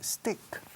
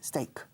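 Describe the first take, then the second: First: The vowel is a short 'i' sound. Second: The vowel is an 'ay' sound, like take. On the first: The speaker calls it wrong. "La mitad de vosotros desde hace treinta años os oigo decir stick" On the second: The speaker calls it right. "Steak, como take, de llevar o tomar, con ese delante"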